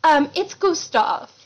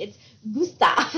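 First: Slow, higher-pitched fancy goat; lightly put-on refined correction; fancy smooth talker. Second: "Gustav" said as goo-STAHF, like the film; half-laughing movie-style "Gustav"; Ratatouille-style pronunciation. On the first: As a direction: draw out "Gustav" with mock elegance. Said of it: "real fancy kind of talking, like, real smooth". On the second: Retold or imitated. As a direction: imitate the film's way of saying "Gustav". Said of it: "saying it like they do on Ratatouille".

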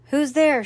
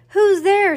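First: Moderately raised, higher call; man's shout. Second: Very high, loud call; woman's shout. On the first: Man in the corner answers the joke, mild shout. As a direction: call it out from the audience. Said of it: "shouted a man in the corner". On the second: Woman in opposite corner answers the joke, high shout. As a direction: shriller woman calling across the hall. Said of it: "shouted a woman". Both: A narrator's reading.

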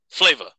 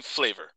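First: "Flavor" with the final r dropped, like "flay-vuh"; slangy "flavor". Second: Said in the usual way. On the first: Shown as a demonstration. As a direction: say "Flavor" loosely, ending in "uh" with no r. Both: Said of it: "I'm gonna say flavor".

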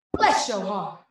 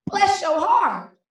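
First: A measured Midwest falling line; Midwest mama. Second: High, slow Southern drawl; down-south mama. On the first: Poet quotes mama's veiled insult, restrained Midwest delivery. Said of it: "so Midwest, she said". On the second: Poet quotes mama's veiled insult, drawn-out Southern sweetness. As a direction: stretch it out Southern-style, falling on the last word. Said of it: "so down south, she said". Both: Acted.

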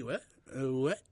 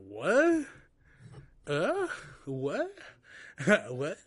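First: a rapper impression. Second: Stunned rising what, jumping high; retelling being told to pay and leave, stunned high rising what; incredulous what. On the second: Retold or imitated. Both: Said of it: "Quick rapper".

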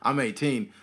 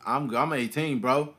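First: A hint of put-on bass. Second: Said in the usual way. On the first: Shown as a demonstration. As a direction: put some bass in it, trying to pass for older. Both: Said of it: "with bass in my voice".

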